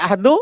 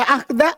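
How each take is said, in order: First: The word ends with a u vowel. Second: The word ends with an a vowel. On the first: The word is the subject of the verb. "Kalau dibaca ahdu, fa'il" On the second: The word is the object of the verb. "Kalau dibaca akhda, maf'ul bih"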